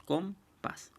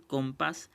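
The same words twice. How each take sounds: First: Compás broken into com, pás; split into syllables. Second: Said in the usual way. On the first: Shown as a demonstration. Teacher dividing a word for the class, compás syllable by syllable. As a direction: say compás as two separate syllables with a pause between. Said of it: "se separa en dos sílabas". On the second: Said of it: "por ejemplo aquí".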